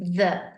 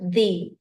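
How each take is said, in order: First: The vowel is a short, weak 'uh'. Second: The vowel is a long 'ee' sound. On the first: "and this one is the" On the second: "One has like more like an E sound"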